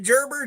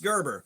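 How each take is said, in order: First: It sounds unlike the baby food brand name. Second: It sounds like the baby food brand name. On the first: It is said this way to annoy people. The speaker calls it wrong. "I would pronounce it Gerber just to bother people" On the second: This is the accepted pronunciation. The speaker calls it right. "it's pronounced like the baby food"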